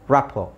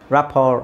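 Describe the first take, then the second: First: The final r sound is left silent. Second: The final r sound is pronounced. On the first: "ಈ ಎರಡನ್ನೂ silent ಮಾಡ್ಬೋದು. Just say" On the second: "ತುಂಬ ಜನ ಅದು ಆರ್ನ pronounce ಮಾಡ್ತಾರೆ"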